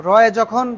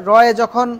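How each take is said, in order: No difference in how they are said.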